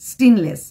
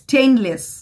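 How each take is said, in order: First: The first vowel is a short 'eh'. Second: The first vowel glides like 'ay'. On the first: The speaker calls it wrong. "স্টেনলেস steel কোনো word হয় না" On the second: The speaker calls it right. "কোথায় স্টেইনলেস"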